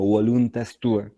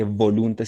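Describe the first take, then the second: First: "voluntas" with the v as w, "wo-LUN-tas"; "voluntas tua" classical, v like w. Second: "voluntas" with the v as b, "bo-LUN-tas"; "voluntas" said Spanish style. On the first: Teacher giving the classical form. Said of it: "sino voluntas tua". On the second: Teacher showing the v to avoid. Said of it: "no se dice voluntas". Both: Shown as a demonstration.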